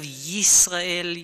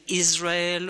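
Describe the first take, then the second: First: The name begins with a y sound. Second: The name begins with a vowel sound. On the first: "the sound y" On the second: "it's difficult to pronounce uh, the sound y"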